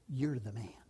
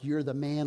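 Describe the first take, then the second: First: It is said as a grave accusation. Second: It is said as cheerful, admiring praise.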